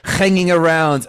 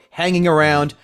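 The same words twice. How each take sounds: First: It is said in a put-on foreign accent. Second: It is said in the speaker's normal accent.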